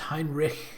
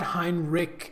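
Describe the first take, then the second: First: The name ends with a rasping throat sound. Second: The name ends without a rasping throat sound. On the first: The speaker calls it right. "There's a little bit of at the end" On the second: The speaker calls it wrong. "It's not Heinrich"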